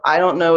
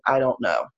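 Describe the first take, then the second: First: Said in the usual way. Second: A breathy checked-out whisper; whispered mock "I don't know". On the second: Shown as a demonstration. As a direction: mutter it as if giving up. Demo of checkout phrase.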